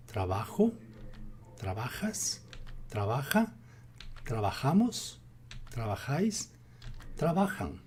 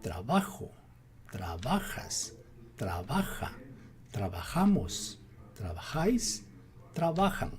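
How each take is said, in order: First: Said in the usual way. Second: "Trabajo" as tra-BA-jo, "trabajamos" as tra-ba-JA-mos, "trabajáis" as tra-ba-JÁIS, stressed syllable leaned on; teacher leaning on BA in "trabajas" and "trabaja"; drilling where "trabajan" takes its stress, tra-BA-jan; stress shown. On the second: Shown as a demonstration. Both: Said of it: "What is the emphasis?".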